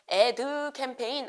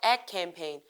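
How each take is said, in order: First: The word ad ends with an added vowel. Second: The word ad ends cleanly on the d. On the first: The speaker calls it wrong. "이거 발음 주의하세요. 애드 캠페인 안 하죠?" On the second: The speaker calls it right.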